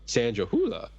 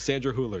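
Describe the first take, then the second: First: The name is pronounced in an unusual, marked way. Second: The name is pronounced in a plain, ordinary way. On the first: "I just felt the need to say that" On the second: "I'll say it normal"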